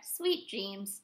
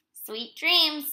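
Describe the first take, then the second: First: Low, quiet little farewell; soft goodnight reply. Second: Higher-pitched, sing-out goodnight; Bear's goodnight. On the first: Little Bird answers Bear before napping, soft goodnight. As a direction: answer softly, settling into sleep. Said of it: "chirped Little Bird". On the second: Bear to Little Bird before napping, higher-pitched goodnight. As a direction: wish it brightly before a nap. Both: A narrator's reading.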